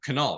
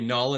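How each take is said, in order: First: The name starts with a K sound before N. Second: The name starts directly with an N sound. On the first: The speaker calls it right. "instead of Canal. That's how it's pronounced" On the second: The speaker calls it wrong. "most people would would call you Null"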